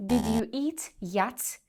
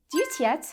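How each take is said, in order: First: Slow, separate "did you eat yet"; overly correct full words. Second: "did you eat yet" squashed into two beats; native reduced "d'you eat yet". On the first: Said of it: "if you speak too correctly". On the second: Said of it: "they will say". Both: Shown as a demonstration.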